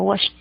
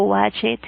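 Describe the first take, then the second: First: "washed" as one syllable, washt; "washed" pronounced washt; correct T ending. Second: "watched" in two syllables, wa-CHED; "watched" as wa-ched, rising at the end; wrong, spelled-out ED. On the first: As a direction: close "washed" with a crisp t, no e. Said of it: "sino washed". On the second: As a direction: sound a full Spanish e in "watched". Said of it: "No digo watched". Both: Shown as a demonstration.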